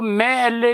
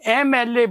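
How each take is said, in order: First: The first letter begins with an 'm' consonant sound. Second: The first letter begins with an 'e' vowel sound. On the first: The speaker calls it wrong. "हम इसको मैं L A नहीं बोलते" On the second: The speaker calls it right. "एम L A बोलते हैं"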